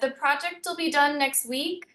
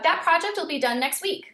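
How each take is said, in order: First: The statement sounds unsure at the end. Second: The statement sounds certain and confident. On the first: The speaker has no idea if it will be finished. The speaker calls it wrong. "it sounds like I have no clue. And all I did was change my tone slightly at the very end" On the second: The project will definitely be finished. The speaker calls it right. "That sounds very much like it's going to happen"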